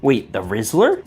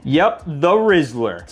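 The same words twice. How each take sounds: First: Surprised question. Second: "Rizzler" said slowly with a falling, knowing tune; confident drawn-out confirmation; slow confirming. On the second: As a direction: lean back and land "Rizzler" flatly. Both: Acted.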